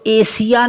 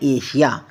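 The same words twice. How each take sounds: First: The middle consonant is a plain 's' sound. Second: The middle consonant is an 'sh' sound. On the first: The speaker calls it wrong. "इसको एशिया नहीं पढ़ना" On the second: The speaker calls it right. "इसको क्या पढ़ना है, एशिया"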